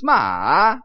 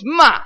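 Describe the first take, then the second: First: The pitch falls low, then rises back up. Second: The pitch falls sharply from high to low. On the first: It means horse. "you start at 70, you go down to 30, and then you go back up to 70" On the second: It means to scold. "you start at 70, you go down to 30. It's like you're yelling stop at somebody"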